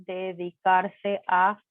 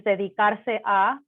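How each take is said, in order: First: Slow model. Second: Said in the usual way. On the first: Shown as a demonstration. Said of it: "teacher repeats verb slowly". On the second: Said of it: "teacher gives verb then repeats".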